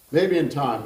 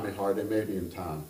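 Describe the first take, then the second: First: Put-on Kentucky gentleman's fond pronouncement, Kentucky accent; Kentucky voice, firm and fond. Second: Kentucky gentleman echoing himself gently; Kentucky accent. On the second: Acted. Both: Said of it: "I'm going to attempt that kind of accent".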